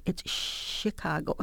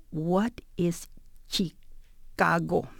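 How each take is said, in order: First: Chicago with a soft, drawn-out "sh" at the start; Chicago said "Shi-cago", hushed "sh" to correct someone; corrected pronunciation. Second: Chicago with a hard "ch" sound, slowly broken up; slow, halting "Chee-cago" for Chicago; mispronounced CH. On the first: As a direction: stretch the "sh" opening of Chicago, slowly. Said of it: "it's not ch". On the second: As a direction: puzzle over Chicago, starting it like "cheek". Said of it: "pronounced the C H with a ch sound". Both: Retold or imitated.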